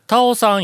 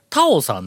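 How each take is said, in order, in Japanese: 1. 高い音は2番目の音節にある。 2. 高い音は最初の音節にある。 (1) "それ逆や" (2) "俺はタオさんなのに"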